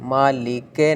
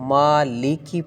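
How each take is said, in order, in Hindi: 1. अंतिम स्वर 'e' जैसा सुनाई देता है। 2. अंतिम स्वर 'i' जैसा सुनाई देता है। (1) "मालिके नहीं पढ़ना" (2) "मालिकी पढ़नी"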